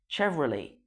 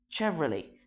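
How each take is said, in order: No difference in how they are said.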